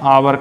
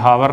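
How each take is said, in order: First: The word begins with a vowel sound. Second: The word begins with an h sound. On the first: The speaker calls it right. "Hindi में आवर कहेंगे" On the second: The speaker calls it wrong. "हावर नहीं कहेंगे"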